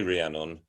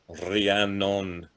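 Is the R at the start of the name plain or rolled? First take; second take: plain; rolled. First: The R is a plain English R. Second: The R is rolled, in a Welsh way. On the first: "they don't say Rhiannon" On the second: "they roll the R and they go"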